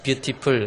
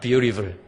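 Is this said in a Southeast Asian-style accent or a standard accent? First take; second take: Southeast Asian; standard. First: It is said with a Southeast Asian-style accent. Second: It is said with a standard English accent. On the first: The speaker calls it wrong. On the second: The speaker calls it right.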